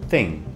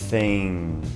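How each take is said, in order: First: The word is said quickly and smoothly. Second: The word is drawn out slowly and exaggerated. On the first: "depois de praticar mais, vai sair rapidamente" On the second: "Isso é exagerado, mas dá para demonstrar. Assim, começa"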